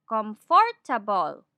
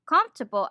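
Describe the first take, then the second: First: "comfortable" slowed, com-for-ta-ble, every vowel full; Tagalog English pronunciation. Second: Said in the usual way. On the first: Shown as a demonstration. Teacher shows the school-taught way, syllable by syllable "comfortable". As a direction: say "comfortable" in four choppy Filipino syllables. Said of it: "This is what we call the Tagalog English accent". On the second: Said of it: "We were taught to pronounce".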